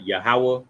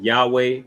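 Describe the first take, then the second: First: Yahweh said as ya-HA-wah; claimed correct pronunciation. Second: Yahweh in two syllables, YAH-way; rejected pronunciation. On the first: Teacher giving the name, Yahweh as ya-HA-wah. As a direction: say Yahweh in three syllables ending in wah. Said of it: "but his name is". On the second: Teacher rejecting a mispronunciation, Yahweh as YAH-way. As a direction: end Yahweh on a way sound. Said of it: "It's not". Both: Shown as a demonstration.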